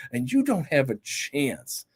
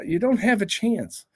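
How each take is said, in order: First: "you" leaned on, slow and hushed; a soft, slow, final verdict; slow, quiet warning. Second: Said in the usual way. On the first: Shown as a demonstration. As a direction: drop it down and slow, stress "you".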